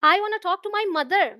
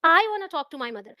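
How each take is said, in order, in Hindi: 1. Stress शब्द 'mother' पर है। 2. स्ट्रेस शब्द 'I' पर है। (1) "पिता से नहीं" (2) "अगर मैं आई पर स्ट्रेस दूं"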